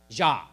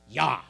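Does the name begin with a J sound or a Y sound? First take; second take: J sound; Y sound. First: The name begins with a J sound. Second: The name begins with a Y sound. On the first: The speaker calls it wrong. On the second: The speaker calls it right.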